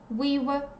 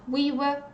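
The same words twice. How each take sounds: The two takes are said the same way.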